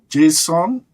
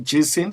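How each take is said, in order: First: The last syllable sounds like the word son. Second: The last syllable does not sound like son. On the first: This is how people in the guest's area say it. "you pronounce S O N as son uh, in your area" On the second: This is how the host's community says it. "for us we say Jason"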